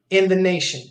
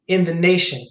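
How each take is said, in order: The two takes are said the same way.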